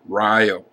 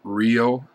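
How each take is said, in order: First: The name is said the way locals say it. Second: The name is said the way most people expect. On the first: This is how the town itself says the name. "In Wisconsin, the town is named Rio" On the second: This is how outsiders would say the name. "how many of you would pronounce it Rio"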